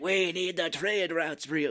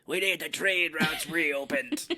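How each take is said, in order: First: Slow, half-British villain line, slightly higher; British accent attempt. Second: Slow, gravel-voiced villain line; smoky Kiefer Sutherland impression. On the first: Retelling the villain's British-accented line, slow. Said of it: "this weird British kinda accent". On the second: Mocking the film villain's smoky voice, slow. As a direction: drag it out like a lifelong smoker. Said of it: "this is how he sounds".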